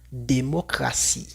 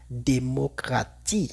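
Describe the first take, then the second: First: The t is pronounced as an s sound. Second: The t is pronounced as a t sound. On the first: The speaker calls it right. "la T antes de I más otra vocal se lee como una S" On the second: The speaker calls it wrong. "Una persona que no sabe diría démocratie"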